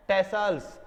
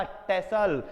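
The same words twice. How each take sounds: First: टेसल्स said with a plural s at the end, ending in -ls; with final s. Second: टेसल said without the plural s, ending on -l; without final s. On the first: Teacher tells students the form with final s. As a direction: say टेसल्स as tasselS, the form he calls wrong. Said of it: "टेसल्स बोलना गलत है". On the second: Teacher gives students the form without final s. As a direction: say टेसल as plain tassel, no s. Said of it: "इसलिए हम इसे टेसल बोल रहे हैं". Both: Shown as a demonstration.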